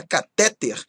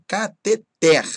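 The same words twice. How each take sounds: First: "catéter" stressed on TÉ; stress on middle syllable. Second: "Cateter" slow, final TER punched; stress on last syllable. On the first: Teacher quoting a common error, "catéter" stressed on TÉ. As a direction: wrongly hit TÉ in "catéter". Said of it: "às vezes fala catéter". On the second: Teacher correcting the common error, "Cateter" as ca-te-TÉR, slow. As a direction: draw out "Cateter" and land on TER. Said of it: "Não, tá errado". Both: Shown as a demonstration.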